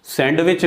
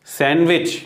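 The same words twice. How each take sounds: First: सैंडविच with the d pronounced, "sand-wich"; D wrongly sounded. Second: सैंडविच as "san-wich"; silent D. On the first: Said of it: "सैंडविच नहीं". (सैंडविच में डी का गलत उच्चारण) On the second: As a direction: drop the d in सैंडविच. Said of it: "वहाँ डी का sound नहीं होता". (सैंडविच में डी silent) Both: Shown as a demonstration.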